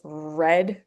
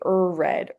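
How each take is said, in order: First: The r starts directly with no vowel before. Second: An extra uh vowel comes before the r. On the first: The speaker calls it right. "It's just red run" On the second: The speaker calls it wrong. "we don't say er red"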